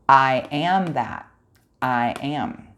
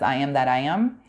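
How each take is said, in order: First: There is a pause after the word that. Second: It runs as one phrase without a break. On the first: The speaker calls it right. "This is what they're saying" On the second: The speaker calls it wrong. "I have a feeling most of us have not been reading that correctly"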